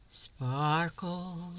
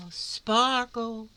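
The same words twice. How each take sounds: First: Said in the usual way. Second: Higher, louder, delighted; excited. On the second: Shown as a demonstration. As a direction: make the word sparkle. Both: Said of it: "do you see how it sparkles?".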